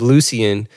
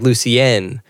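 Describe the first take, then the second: First: "Lucian" read as spelled, LOO-see-un; anglicized Lucian. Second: "Lucienne" with a full final EN, loo-see-EN; French-style Lucienne. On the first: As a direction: say "Lucian" with a weak, unstressed ending. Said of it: "I was always also pronouncing that wrong". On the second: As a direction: say "Lucienne" ending in a clear -enn. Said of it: "just the way he said it". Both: Shown as a demonstration.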